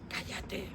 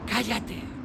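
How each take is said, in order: First: The word is whispered softly. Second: The word is said a bit louder. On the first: "sale un susurro que dice" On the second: "la voz del susurro sube un poco y dice"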